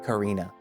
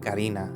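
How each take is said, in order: First: The name is said with an English pronunciation. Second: The name is said with a Spanish pronunciation. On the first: The speaker calls it wrong. "I'm pronouncing her name like in English" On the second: The speaker calls it right. "instead of saying Karina"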